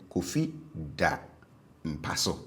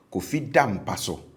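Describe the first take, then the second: First: DA dropped low after "Kofi"; stative low tone. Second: DA said on a high tone in "Kofi da mpa so"; habitual high tone. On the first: Teacher models the stative for learners, DA low-toned. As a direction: let DA sit low and separate. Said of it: "on the stative verb was low". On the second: Teacher models the habitual for learners, DA high-toned. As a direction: lift DA high, then drop for "mpa so". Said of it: "on the habitual verb was high". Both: Shown as a demonstration.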